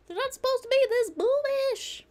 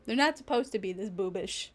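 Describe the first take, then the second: First: Very high, louder comic squeal; mock outcry. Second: Said in the usual way. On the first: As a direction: repeat it as a squealed, hammed-up protest. Repeats it in mock outrage.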